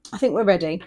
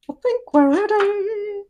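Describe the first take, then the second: First: Said in the usual way. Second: High, slow, playful voice; sing-song put-on voice. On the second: Shown as a demonstration. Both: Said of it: "repeats in a put-on voice".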